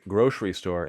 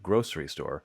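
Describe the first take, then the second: First: The middle consonant is pronounced as sh. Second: The middle consonant is pronounced as s. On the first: "if you say grocery store" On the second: "instead of grocery store"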